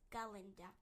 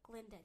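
First: The name is said with three syllables. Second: The name is said with two syllables. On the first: The speaker calls it right. "With a ga" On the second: The speaker calls it wrong. "he never pronounced it right"

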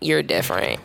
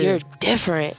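First: It is said with a scornful, mocking tone. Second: It is said with a warm, admiring tone. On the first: Being different is treated as a flaw. "you hear the inflection behind you're different in a bad way" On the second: Being different is treated as a strength. "But then when you move out here, it's like, oh, yeah"

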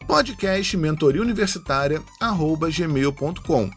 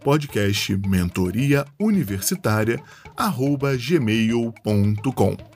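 First: It is said at a normal, quicker pace. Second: It is said slowly and deliberately.

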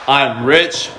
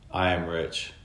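First: The voice is lively, with lots of energy. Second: The voice is flat, with little energy. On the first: The speaker is really feeling the words. The speaker calls it right. "versus I'm rich, wealthy, and I love my life" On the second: The speaker is only saying the words without feeling them. The speaker calls it wrong. "Like monotone"

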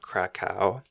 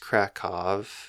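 First: The name ends with a w sound. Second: The name ends with a v sound. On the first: The speaker calls it wrong. "not Krakow" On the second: The speaker calls it right. "it's Krakow, ... W's are pronounced as V's in Polish"

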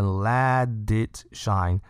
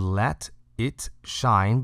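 First: The words run together with linked sounds. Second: The words are said separately without linking. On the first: "变成let it shine" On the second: "它不是let it shine"

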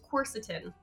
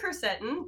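First: The stress is on the first syllable. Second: The stress is on the second syllable. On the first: The speaker calls it right. "the way I pronounce it is quercetin" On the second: The speaker calls it wrong. "The emphasis was on the wrong syllable"

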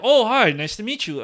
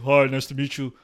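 First: It is said in a high-pitched voice. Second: It is said in a deep voice.

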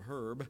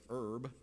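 First: The word starts with an h sound. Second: The word starts without an h sound.

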